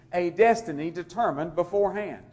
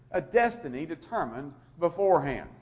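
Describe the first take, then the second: The two takes are said the same way.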